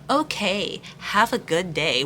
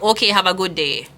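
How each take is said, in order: First: It is said in a pointed, suspicious tone. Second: It is said in a light, casual tone. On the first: The message is read as hiding something. "somebody else is reading like ... What the fuck does that mean?" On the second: The message is read as harmless. "somebody I read it like"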